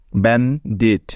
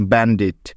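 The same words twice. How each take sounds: First: "bandit" split in two with a pause in the middle; pause mid-word. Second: Said in the usual way. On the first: Shown as a demonstration. Teacher showing the word has two syllables, "bandit" paused in the middle. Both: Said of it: "মাঝখানে থামতে হয়েছে বা pause".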